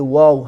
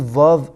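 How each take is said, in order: First: The word begins with a w sound. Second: The word begins with a v sound. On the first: The speaker calls it right. "بلکه واو هست" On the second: The speaker calls it wrong. "در عربی واو نیست"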